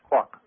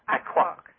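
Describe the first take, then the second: First: The name begins directly with a 'k' sound. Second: The name begins with an extra vowel syllable. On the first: The name is said as it is really pronounced. The speaker calls it right. "But it is actually pronounced quok" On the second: The name is read out as it is spelled. The speaker calls it wrong. "That is how it is written"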